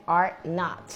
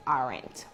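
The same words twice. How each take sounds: First: Said in the usual way. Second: "aren't" run together, low and soft; contracted form. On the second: Shown as a demonstration. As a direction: model "aren't" with ARE and NOT merged into one word. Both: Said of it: "que sería una contracción".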